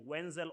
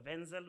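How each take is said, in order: First: "Wenzel" with an English W sound; one pronunciation option. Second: "Wenzel" with a German-style V sound; alternative pronunciation. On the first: Speaker thanking sponsors offers one pronunciation, "Wenzel" with a W. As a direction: say "Wenzel" starting as in "when". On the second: Speaker thanking sponsors offers the alternative, "Wenzel" with a V. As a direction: say "Wenzel" starting with a V. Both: Shown as a demonstration. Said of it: "whichever way you choose to pronounce it".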